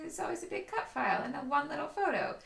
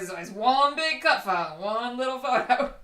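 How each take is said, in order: First: The sentence is said in a mild, neutral tone. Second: The sentence is said in a critical, dismissive tone. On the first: It is just an honest personal preference. "you read in your voice, it sounds more like" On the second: It sounds like a judgment of other people's work. "But I read it and I think"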